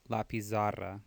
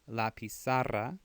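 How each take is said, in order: First: The z is pronounced as a buzzing z. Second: The z is pronounced as an s sound. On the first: The speaker calls it wrong. "don't say la pizarra. It's not a Z sound" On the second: The speaker calls it right. "the Z's make S sounds in Latin America"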